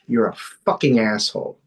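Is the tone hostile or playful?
hostile. It is said in a hostile, insulting tone. The speaker means it as an insult. "That's not nice"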